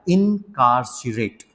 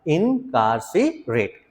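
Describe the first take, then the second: First: Slowly spelled out incarcerate; slow demo word. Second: इनकार्सिरेट stretched very slowly; drawn out. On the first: Teacher slowly models the word for students. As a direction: say इनकार्सिरेट slowly, syllable by syllable. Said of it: "इसको बोलो आप बेटा". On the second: Teacher drills the word very slowly for class. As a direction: drag out इनकार्सिरेट, each syllable long. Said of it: "तेज बोलना एक बार". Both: Shown as a demonstration.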